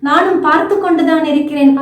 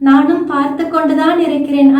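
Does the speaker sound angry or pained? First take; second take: angry; pained. First: It is said in an angry tone. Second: It is said in a pained, sorrowful tone. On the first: The speaker is furious at what is being done. "ஒரு கோபமானா" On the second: The speaker is deeply hurt by what is being done. "அந்த வழியோட நாம பார்க்கும்போது"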